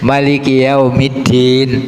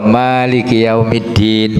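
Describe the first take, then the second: First: The first vowel 'ma' is kept short. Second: The first vowel 'ma' is held long. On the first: God is the king who reigns on the Day of Judgment. "kalau ma-nya pendek" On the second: God is the owner of the Day of Judgment. "ma manya dua dua ketuk"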